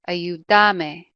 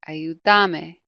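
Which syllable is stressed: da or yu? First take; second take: da; da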